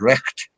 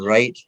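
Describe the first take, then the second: First: It has a throaty 'ch' sound, Scots style. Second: It has a plain English 'ai' vowel sound. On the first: "if we're doing that properly in Scots, it'd be recht" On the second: "rather than right"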